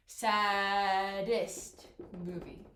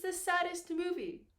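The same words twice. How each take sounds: First: Very slow, SADDEST stretched in two parts; drawn out slowly. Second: Said in the usual way. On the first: Shown as a demonstration. Teacher doubling the consonant for students, drawn out slowly. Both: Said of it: "go through them slowly".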